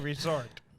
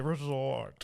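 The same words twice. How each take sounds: First: The word is said in a plain, ordinary manner. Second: The word is said in a pompous, posh manner. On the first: The speaker calls it right. "You say resort" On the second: The speaker calls it wrong.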